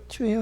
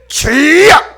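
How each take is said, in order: First: It is said weakly, without force. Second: It is shouted out forcefully.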